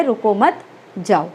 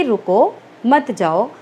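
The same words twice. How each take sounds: First: "रुको मत" run together, pause, then "जाओ"; pause after मत. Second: Rising "रुको", comma pause, then "मत जाओ"; pause after रुको. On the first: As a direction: join रुको to मत and break before जाओ. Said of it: "और श्रोता सुनता है". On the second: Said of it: "जैसे मैंने आपको बताया कि". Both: Shown as a demonstration.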